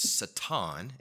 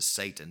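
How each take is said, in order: First: The word is said with a Hebrew pronunciation. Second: The word is said with an English pronunciation. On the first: "if you're trying to do it in Hebrew, it's Satan" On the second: "as opposed to Satan"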